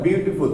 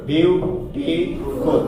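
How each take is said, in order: First: Said in the usual way. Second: "বিউটিফুল" very slowly, split as বিউ, টি, ফুল; broken into syllables. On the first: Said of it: "একবার উচ্চারণ করতে পারবে না". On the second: Shown as a demonstration. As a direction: break "বিউটিফুল" into three separate drawn-out syllables. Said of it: "ভেঙে ভেঙে উচ্চারণ করতে হবে".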